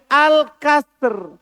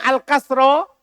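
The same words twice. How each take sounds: First: "al-kasr" loud, closed on r, no final vowel; al-kasr without ta. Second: "al-kasro" loud, ending on an open o; al-kasro with ta marbuta. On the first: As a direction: end "al-kasr" on the bare consonants. (ucapkan "al-kasr" keras, tanpa vokal akhir) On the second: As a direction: sound the final vowel of "al-kasro". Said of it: "pakai ta marbuto". (ucapkan "al-kasro" keras, dengan vokal akhir) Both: Shown as a demonstration.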